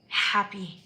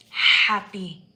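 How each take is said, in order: First: Said in the usual way. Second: Joyful shout. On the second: Real, not acted. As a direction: shout "Happy." out loud with a falling end. Repeats happy much louder.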